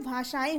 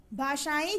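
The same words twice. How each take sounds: First: भाषाएं ending in nasal "en"; correct भाषाएं. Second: भाषाएं with its written wrong ending, "ain"; mispronounced भाषाएं. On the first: Teacher gives the right word, भाषाएं as bhashaen, lower. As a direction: close the last vowel of भाषाएं to nasal e. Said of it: "क्या होता है". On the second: Teacher reads the misspelling, भाषाएं ending in ai. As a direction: end भाषाएं on an open ai. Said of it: "जैसा कोई शब्द नहीं होता". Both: Shown as a demonstration.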